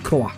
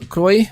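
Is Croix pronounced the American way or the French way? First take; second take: French; American. First: Croix is said with a French pronunciation. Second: Croix is said with an American pronunciation. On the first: "If it's French, it should be Croix" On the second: "they're Americans and they pronounce Saint Croix"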